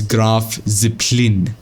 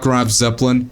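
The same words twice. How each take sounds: First: The name is pronounced in a German way. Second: The name is pronounced in an English way. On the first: The speaker calls it right. "It's Graf Zeppelin" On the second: The speaker calls it wrong. "not Graf Zeppelin"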